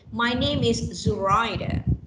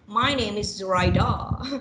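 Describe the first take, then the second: First: The stress is on the second syllable. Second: The stress is on the third syllable. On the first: "Second will be" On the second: "and the third one"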